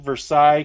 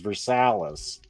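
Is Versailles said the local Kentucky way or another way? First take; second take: another way; Kentucky way. First: The name is said in a non-local way. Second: The name is said the local Kentucky way. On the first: The speaker calls it wrong. "And I'm saying it wrong" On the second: The speaker calls it right. "the actual Kentucky pronunciation"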